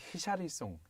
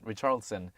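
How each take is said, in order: First: The name is said the Brazilian way. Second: The name is said the American way. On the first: "브라질 쪽에서는 히샤리송" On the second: "In American pronunciation it's Richarlison"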